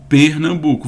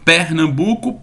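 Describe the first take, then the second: First: The first syllable has a closed vowel. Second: The first syllable has an open vowel. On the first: "ou posso falar isso" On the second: "Eu posso falar isso aberto"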